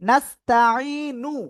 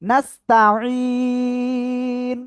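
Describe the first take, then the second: First: The word ends with a short final vowel. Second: The word ends on a consonant, vowel stretched. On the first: The speaker calls it wrong. "এটা না পড়ে" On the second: The speaker calls it right. "পড়বো নাস্তাইন"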